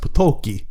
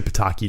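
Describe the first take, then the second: First: The name is said the original Polish way. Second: The name is said the anglicized way. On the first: "in the original Polish it was pronounced Potoki" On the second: "we'll say Pataki"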